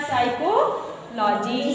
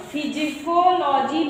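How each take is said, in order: First: साइकोलॉजी starting straight on S, drawn out slowly; silent P. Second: फिजिकोलॉजी starting on a voiced-out P syllable; wrongly sounded P. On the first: Teacher models it for pupils, slow साइकोलॉजी with silent P. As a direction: begin साइकोलॉजी with S, dropping the P. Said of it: "S से पढ़ना". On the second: Teacher shows pupils the misreading, फिजिकोलॉजी with P sounded. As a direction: sound the silent P at the front of फिजिकोलॉजी. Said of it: "मत पढ़ना". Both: Shown as a demonstration.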